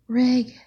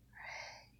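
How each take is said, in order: First: It is shouted loudly and eagerly. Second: It is moaned with a drawn-out voice.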